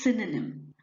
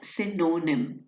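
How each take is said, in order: First: The middle vowel is a weak 'uh' sound. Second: The middle vowel is a full vowel. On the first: The speaker calls it right. "It is synonym. That means it will be syn, ... uh, ... nim" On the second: The speaker calls it wrong. "you will not pronounce it as synonym"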